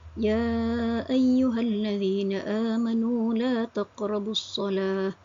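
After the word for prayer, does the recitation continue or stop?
Stops. The recitation stops right after the word for prayer. Believers are told never to approach prayer. The speaker calls it wrong. "contohnya berhenti pada ayat"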